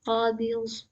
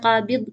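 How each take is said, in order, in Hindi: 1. अंतिम व्यंजन सहजता से खींचा जाता है। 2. अंतिम व्यंजन एक झटके के साथ कट जाता है। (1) "ग़ौद की अदायगी प्रॉपर्ली करिएगा" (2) "ना ही झटका लगाएँगे, जैसे क़ाबिज़ नहीं कहना है"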